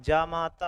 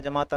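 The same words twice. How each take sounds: First: जामाता with a long first vowel, jaa-maa-taa; proper जामाता, first syllable held long; correct form demo. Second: जमाता with a short first vowel, ja-maa-taa; faulty जमाता, first syllable kept short; wrong form demo. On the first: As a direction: lengthen the opening jaa of जामाता. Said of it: "जामाता होता है". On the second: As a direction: clip the opening ja of जमाता. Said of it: "जमाता नहीं होता". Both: Shown as a demonstration.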